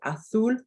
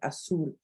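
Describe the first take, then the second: First: The z is said with a th sound. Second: The z is said with an s sound.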